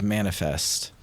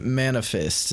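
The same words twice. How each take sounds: First: The word is clearly and carefully enunciated. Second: The word is poorly enunciated and unclear. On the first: The speaker calls it right. "instead of manifest" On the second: The speaker calls it wrong. "The guy didn't enunciate well. He said manifest"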